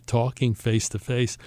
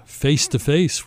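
First: Said in the usual way. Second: Face to face drawn out slowly, each word weighted; slow stressed phrase. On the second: Shown as a demonstration. Host stressing the night's theme to listeners, slow and weighted. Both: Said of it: "which is our theme of tonight".

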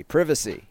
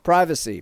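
First: Privacy said with a short i, PRIV-acy; American privacy. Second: Privacy said with a long i, PRY-vacy; privacy with an English long i; British privacy. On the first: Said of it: "are we becoming an English show?". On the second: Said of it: "The what now?". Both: Shown as a demonstration.

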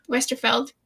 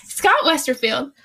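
First: Westerfeld, ending in "feld" with no I; corrected name. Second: Westerfield, said with a full "field" ending; old wrong spelling. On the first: Host corrects the author's surname to Westerfeld, "feld" with no I. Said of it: "there's no I". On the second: Podcast host tries the author's name the old wrong way, Westerfield with "field". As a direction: say Westerfield the way she always did, "field" rhyming with "shield". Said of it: "I always called him Westerfield". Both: Shown as a demonstration.

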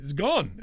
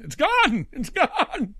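First: Said in the usual way. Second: High, loud cry of disbelief, breaking into a laugh; the house is just gone, say it in shock. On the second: Retold or imitated.

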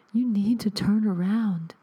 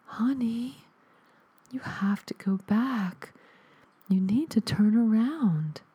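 First: Ghostly warning. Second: High, breathless ghost whisper from the static; ghostly whisper. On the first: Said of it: "a ghostly voice". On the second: Dead mother's ghost whispers to her son through static, high and airless. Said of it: "a ghostly voice pushed the static away". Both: Acted.

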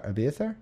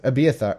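First: Abiathar with a rising questioning tune; unsure question. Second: Said in the usual way. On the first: Real, not acted. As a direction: ask "Abiathar?" doubtfully, rising at the end. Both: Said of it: "I already lost it".

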